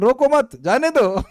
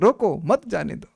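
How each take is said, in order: First: The pause comes after 'मत'. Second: The pause comes after 'रोको'.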